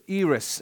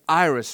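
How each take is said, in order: First: It is said with a Greek pronunciation. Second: It is said with an English pronunciation.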